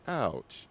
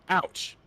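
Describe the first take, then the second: First: It sounds soft and gentle. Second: It sounds sharp and pained. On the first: It reacts to a gentle caress. "But if caressing her face, that's ouch" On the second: It reacts to a hard pinch. "As opposed to ouch"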